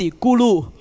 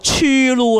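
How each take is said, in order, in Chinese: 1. 第一个音节以 'g' 音开头。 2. 第一个音节以 'ch' 音开头。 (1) "其实佢系梵文字咕噜" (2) "你唔好再粗噜啦，冇人粗噜嘅"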